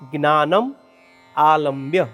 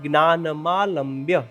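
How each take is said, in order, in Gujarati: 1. આ બે શબ્દો છૂટા છૂટા, અલગ અલગ બોલાય છે. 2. આ બે શબ્દો ભેગા કરીને એક શબ્દ જેમ બોલાય છે. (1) "આ શબ્દમાં છૂટા છૂટા બે શબ્દ છે" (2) "ભેગો શબ્દ"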